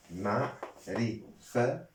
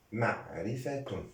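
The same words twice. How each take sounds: First: "معرفة" slowly broken into separate syllables. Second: Said in the usual way. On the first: Shown as a demonstration. Teacher sounding out a grammar term for learners, syllable by syllable. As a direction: spell out "معرفة" in slow, spaced syllables.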